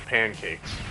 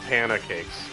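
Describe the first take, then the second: First: The word is said with two syllables. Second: An extra vowel splits the word into three syllables. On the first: The speaker calls it right. "I learned that they were pancakes" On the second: The speaker calls it wrong. "I called them panna cakes"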